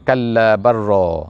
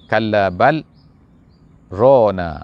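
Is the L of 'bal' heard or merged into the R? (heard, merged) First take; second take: merged; heard. First: The L sound merges into a doubled R. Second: The L sound is kept before the R. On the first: "Lam tu bila mati dia akan berjumpa dengan ra, maka dia akan masuk" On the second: "Tapi qiraat kita kita baca kalla bal rona"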